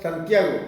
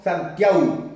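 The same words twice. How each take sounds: First: Said in the usual way. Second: Santiago without the g, ending "-au": "Santiau"; Mapuche-style pronunciation. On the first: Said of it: "Tampoco decimos Santiago". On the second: Shown as a demonstration. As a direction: say "Santiago" slowly as san-TIAU. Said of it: "decimos Santiago".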